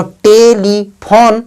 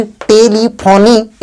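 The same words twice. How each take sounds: First: Slow "टेलीफोन" ending on n, no ee; measured te-li-phone for "टेलीफोन"; silent e. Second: Slow "टेलीफोनी" ending in a long ee; drawn-out te-li-pho-nee for "टेलीफोनी"; wrongly sounded e. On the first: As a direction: sound out "टेलीफोन" in three syllables, stopping at n. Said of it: "ई silent है". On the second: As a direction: misread it as "टेलीफोनी", voicing the last e. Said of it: "ना कि टेलीफोनी". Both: Shown as a demonstration.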